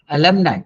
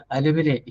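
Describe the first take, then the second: First: "alumni" ending in "nai", like "alibi"; correct pronunciation. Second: "alumni" said as "alu-mi-nee"; local mispronunciation. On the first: Shown as a demonstration. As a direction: model "alumni" with a long-i ending. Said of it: "just like alibi". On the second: Retold or imitated. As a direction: imitate others saying "alumni" with an ee ending. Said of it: "sometimes they say alumni".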